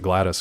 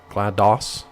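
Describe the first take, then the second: First: The name ends with an unstressed 'dis' sound. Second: The name ends with a full 'doss' sound. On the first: The speaker calls it wrong. "I always just pronounce it Gladys" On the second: The speaker calls it right. "So it is like DOS"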